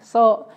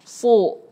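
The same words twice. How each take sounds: First: The s sound is light and thin. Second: The s sound is heavy and thick. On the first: The speaker calls it wrong. "bukan so" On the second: The speaker calls it right. "Sodnya juga ditebelin"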